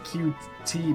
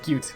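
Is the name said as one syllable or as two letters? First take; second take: two letters; one syllable. First: It is said as two letters, 'Q T'. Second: It is said as one syllable, 'cute'. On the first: "I said Q T, but it's the same thing, just slower" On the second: "I pronounced it, like, as cute like I'm supposed to"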